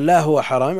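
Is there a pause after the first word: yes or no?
no. The words run on without a pause. The thing is not forbidden. The speaker calls it wrong.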